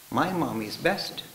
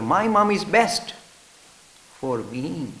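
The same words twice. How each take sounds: First: Devoted. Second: Slow 'My mom is best' then 'for me' set apart; devoted, magic words stressed. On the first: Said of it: "Say with all the love and devotion". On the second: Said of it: "add two magic words". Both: Shown as a demonstration.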